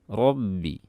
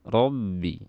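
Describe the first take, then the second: Both takes have the same delivery.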